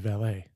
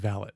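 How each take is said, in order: First: It is pronounced the way French speakers say it. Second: It is pronounced the way British speakers say it. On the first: "French people would say valet" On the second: "British people say valet"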